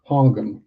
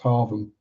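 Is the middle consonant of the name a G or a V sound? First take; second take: G; V. First: The middle consonant is pronounced as a G. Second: The middle consonant is pronounced as a V. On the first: The speaker calls it wrong. "makes sense, doesn't it? Following the rules of the English language" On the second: The speaker calls it right. "The G H is pronounced as a V"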